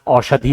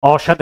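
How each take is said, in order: First: औषधि said as "aushadhi" with a clear final i; the correct औषधि, ending on a long i sound; औषधि with the i vowel sounded at the end; correct form. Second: औषध said as "oshadh" with no final i; the incorrect औषध, ending on a bare dh; औषध clipped without the final vowel; wrong form. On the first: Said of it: "औषधि होता है". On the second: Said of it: "औषध नहीं होता". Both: Shown as a demonstration.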